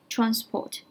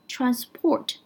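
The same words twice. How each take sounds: First: The stress is on the first syllable. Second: The stress is on the second syllable. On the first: It is a noun meaning a means of transport. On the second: It is a verb meaning to carry or convey.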